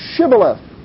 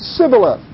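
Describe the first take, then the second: First: The word begins with a sh sound. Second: The word begins with a plain s sound. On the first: The speaker is not from the enemy tribe. The speaker calls it right. "then say" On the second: The speaker is from the enemy tribe. The speaker calls it wrong. "they couldn't pronounce the S's, I mean the H's"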